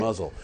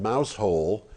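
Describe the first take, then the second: First: It sounds like the word muzzle. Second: It sounds like the words mouse hole. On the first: This is what the town is actually called. "It's called Muzzle" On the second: This is how most people would read the spelling. "the way that most people would pronounce it"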